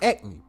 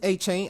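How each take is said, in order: First: The middle consonant is a k sound. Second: The middle consonant is a ch sound. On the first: The speaker calls it wrong. "it looked like Acne, so I said Acne" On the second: The speaker calls it right. "But it's A-Chain"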